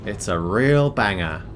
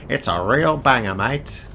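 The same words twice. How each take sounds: First: Put-on slipping lightly into an Australian accent; drawn-out, lightly put-on Australian accent. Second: Hammed-up Australian accent with "mate". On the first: Streamer plugging a podcast interview, slight Australian accent. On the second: Streamer repeating the plug on purpose, exaggerated Australian accent. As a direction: lean harder into a mock Australian accent. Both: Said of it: "said it in an Australian accent".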